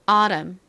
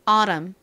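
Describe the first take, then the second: First: The middle t is softened into a flap. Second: The middle t is softened into a flap.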